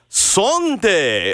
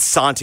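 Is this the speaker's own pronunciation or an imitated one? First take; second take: imitated; own. First: It is said imitating an affected foreign-sounding pronunciation. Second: It is said in the speaker's usual way. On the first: Someone else said it this way, a little too cute. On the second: This is the usual pronunciation.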